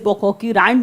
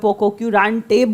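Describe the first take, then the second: First: The word ends on a bare 't' sound. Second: The word ends with an 'ay' vowel. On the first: This is how most people say it. "पोकोक्यूरांट बोलते हैं ज़्यादातर लोग" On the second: This is another common way people say it. "या पोकोक्यूरांटे बोलते हैं"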